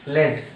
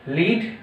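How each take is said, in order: First: लेड with a short e, led. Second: लीड with a long ee, leed. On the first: Teacher drilling the class, लेड as led. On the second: Teacher drilling the class, लीड as leed. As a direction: repeat लीड slowly as leed. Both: Shown as a demonstration. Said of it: "ठीक है?".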